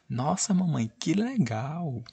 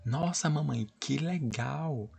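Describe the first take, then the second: First: Put-on much higher, slow, thrilled girl's cry; full exclamation. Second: Put-on higher, slow delighted child's voice; excited girl. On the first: Shown as a demonstration. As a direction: give the girl's line all the emotion. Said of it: "Pra dar mais emoção à frase da menina". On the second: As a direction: play the thrilled little girl. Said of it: "Aí a menina falou".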